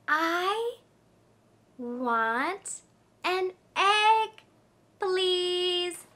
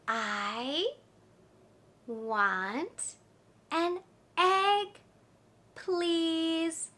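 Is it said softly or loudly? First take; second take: loudly; softly. First: It is said louder. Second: It is said at normal, softer volume.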